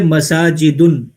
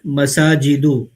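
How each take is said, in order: First: The word ends in -un with a final n. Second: The word ends in a short -u, no n. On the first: The speaker calls it wrong. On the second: The speaker calls it right.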